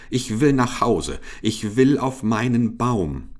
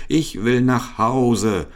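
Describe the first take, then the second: First: Put-on higher-pitched protest of an alarmed old monkey; mock cry. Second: High, slow wail of protest; drawn-out cry. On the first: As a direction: wail it lightly, at normal pace. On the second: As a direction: stretch every word into a desperate cry. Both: A narrator's reading. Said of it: "schrie der alte Affe".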